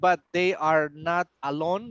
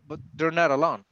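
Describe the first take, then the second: First: Each word is said separately, one by one. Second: The words are joined smoothly together. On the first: The speaker calls it wrong. "like word by word" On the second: The speaker calls it right. "Try to go like that"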